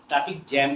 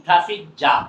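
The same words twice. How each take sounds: First: "জ্যাম" in "traffic জ্যাম" with a front "æ"; jam with "æ". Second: "জাম" in "traffic জাম" with an open "ah"; jam with "ah". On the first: Teacher cites the rejected form, "জ্যাম" with "æ". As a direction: say "traffic জ্যাম" with the vowel of "cat". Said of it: "traffic জ্যাম কেউ বলে না". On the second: Teacher gives the taught form, "জাম" with "ah". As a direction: say "traffic জাম" with "ah" in the last word. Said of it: "আ sound হচ্ছে". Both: Shown as a demonstration.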